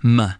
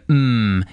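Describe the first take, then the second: First: The consonant is followed by an added uh vowel. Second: The consonant is said alone with no vowel. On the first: The speaker calls it wrong. "the U H off the end of those letters" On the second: The speaker calls it right. "mm instead of m"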